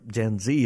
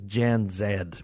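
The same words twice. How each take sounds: First: The Z is said as 'zee', American style. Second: The Z is said as 'zed', British style.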